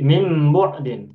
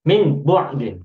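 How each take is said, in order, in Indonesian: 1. Dibaca dengan menerapkan kaidah bunyi tajwid. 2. Dibaca tanpa menerapkan kaidah tajwid. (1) "Kalau dibaca dengan tajwid" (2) "Kalau kita tidak membacanya dengan tajwid"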